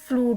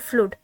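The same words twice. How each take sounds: First: The vowel is long, rhyming with mood. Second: The vowel is short, rhyming with good. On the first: "अगर मूड का rhyming word इसको बनाए" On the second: "अगर गुड का rhyming word इसको बनाए"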